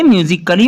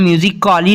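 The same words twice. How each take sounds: First: म्यूजिकली with silent A, short 'kuh-lee'; सही उच्चारण. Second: म्यूजिकली with a full drawn 'kaa-lee' ending; गलत उच्चारण. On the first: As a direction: swallow the A, say म्यूजिकली as 'music-klee'. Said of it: "म्यूजिकली बोलेंगे". (म्यूजिकली में A silent, छोटा 'क-ली') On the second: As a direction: sound out the A in म्यूजिकली as 'music-aa-lee'. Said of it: "नहीं बोलेंगे". (म्यूजिकली में 'का-ली' बोलकर गलत उच्चारण) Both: Shown as a demonstration.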